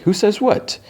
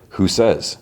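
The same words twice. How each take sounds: First: "Who says what" pitched high, rising on "what"; questioning echo. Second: Said in the usual way. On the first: Retold or imitated.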